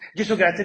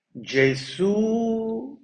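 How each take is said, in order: First: It is said quickly with shallow breaths. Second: It is said slowly with deep breaths. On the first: "meno profondo e più veloce" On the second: "un respiro profondo e lento"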